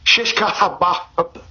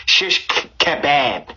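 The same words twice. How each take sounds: First: "kebab" with an open "bahb" ending; kebab, own pronunciation. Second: "kebab" with a short flat "a" in "bab"; "kebab" ending in a flat "bab", British-style. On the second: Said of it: "as you say in, in, in the U K". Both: Shown as a demonstration.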